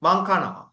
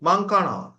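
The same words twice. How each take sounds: Both takes have the same delivery.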